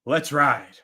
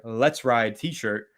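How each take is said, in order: First: Catchphrase sign-off. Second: Let's Ride t-shirt said slowly as one phrase, with no break between Let's and Ride; slow, say Let's Ride t-shirt in one unbroken run; no pause, run together. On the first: Acted. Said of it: "Giants Nation". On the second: Shown as a demonstration. Host naming the shirt, said slowly with no pause. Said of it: "no pause on that one".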